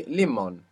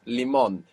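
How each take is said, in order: First: "limón" wrongly stressed on LI, as LI-mon; stress on first syllable. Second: "limón" stressed on the final MÓN, li-MÓN; stress on last syllable. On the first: Teacher shows what the rule predicts, "limón" said as LI-mon. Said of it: "'cause it should be". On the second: Teacher corrects to the real word, "limón" said as li-MÓN. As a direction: put the weight on the second syllable of "limón". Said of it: "But it's not". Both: Shown as a demonstration.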